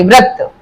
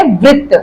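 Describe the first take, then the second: First: "व्रत" said "vrat", an a after the r; व्र with र sound. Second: "वृत्त" said "vritt", an i after the r; री sound. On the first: Teacher contrasts fasting word with circle word, र sound. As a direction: say "व्रत" with व and र blended into "vra". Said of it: "इसे हम व्र बोलेंगे". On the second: Teacher contrasts circle word with fasting word, री sound. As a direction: say "वृत्त" with "vri" at the start. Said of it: "री की sound आ रही है". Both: Shown as a demonstration.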